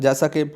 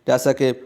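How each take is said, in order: No difference in how they are said.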